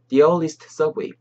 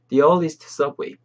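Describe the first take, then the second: No difference in how they are said.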